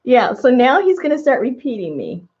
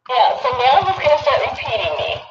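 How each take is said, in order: First: Said in the usual way. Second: High-pitched doll echo; like a talking toy repeating; toy playback. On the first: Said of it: "so she can hear what she sounds like". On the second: Real, not acted. Toy doll plays back her words.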